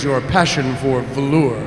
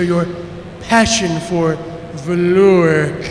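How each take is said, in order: First: The voice is pitched fairly low. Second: The voice sounds sarcastic and dry. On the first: The character does not yet sound like a lizard. The speaker calls it wrong. "that doesn't sound lizardy enough" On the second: The character mocks his superior. The speaker calls it right. "I want him to sound sarcastic like John Lovitz"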